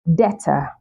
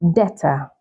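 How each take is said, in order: First: The b sound is silent. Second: The b sound is silent.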